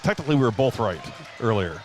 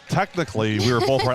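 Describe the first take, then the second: First: It is said at normal, quieter volume. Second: It is said noticeably louder.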